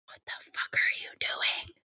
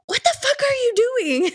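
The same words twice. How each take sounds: First: Hushed, unvoiced whisper to the kids; retold horrified whisper; mortified whisper. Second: High-pitched, incredulous cry; retold high wail of disbelief; appalled outcry. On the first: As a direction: whisper it, embarrassed in public. Embarrassed aunt in grocery store. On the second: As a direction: exclaim it, scandalized at the kids. Aunt scolding dancing kids, retold.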